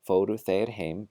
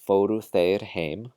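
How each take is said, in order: No difference in how they are said.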